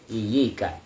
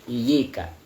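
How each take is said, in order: First: Single y, first vowel i, then i. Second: Single y, first vowel i, then i.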